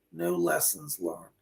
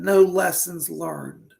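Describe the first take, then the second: First: Low, hushed repeat; soft low echo. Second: Slow, deliberate. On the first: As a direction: let it fade away like an echo. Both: Retold or imitated. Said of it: "She just said".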